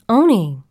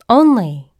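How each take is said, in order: First: The word is said quickly with the l dropped. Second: The word is said in full with the l. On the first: "If I'm speaking very quickly and use the word only, I may pronounce it oni" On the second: "the usual pronunciation of the word"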